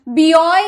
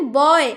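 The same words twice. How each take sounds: First: "बियॉय" with the letter name bee stuck before oy; wrong reading. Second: "बॉय" as one syllable starting on a plain b sound; correct reading. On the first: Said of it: "नहीं बोल रहे". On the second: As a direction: say "बॉय" as boy, no bee. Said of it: "हम बोल रहे". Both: Shown as a demonstration.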